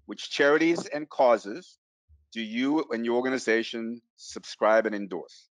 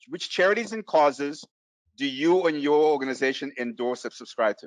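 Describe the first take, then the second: First: It is said slowly and deliberately. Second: It is said at a normal pace.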